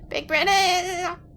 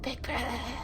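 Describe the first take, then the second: First: It is screamed loudly. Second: It is said weakly and quietly.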